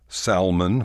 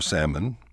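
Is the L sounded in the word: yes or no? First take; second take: yes; no. First: The L in the word is pronounced. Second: The L in the word is silent. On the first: The speaker calls it wrong. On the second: The speaker calls it right.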